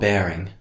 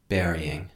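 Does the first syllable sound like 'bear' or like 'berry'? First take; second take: bear; berry. First: The first syllable sounds like 'bear'. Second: The first syllable sounds like 'berry'. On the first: The speaker calls it wrong. "Not bearing" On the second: The speaker calls it right.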